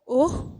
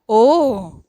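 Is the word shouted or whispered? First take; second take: whispered; shouted. First: The word is whispered softly. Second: The word is shouted loudly. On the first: "whispered" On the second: "shouted चिल्लाकर"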